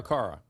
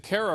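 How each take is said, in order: First: "Kara" with the first vowel as in "car"; alternative pronunciation check. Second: "Kara" with the first vowel as in "care"; first-vowel pronunciation check. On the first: Host offering caller another option, "Kara" said as CAR-uh. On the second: Host checking caller's name, "Kara" said as CARE-uh. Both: Shown as a demonstration. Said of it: "is it Kara or Kara?".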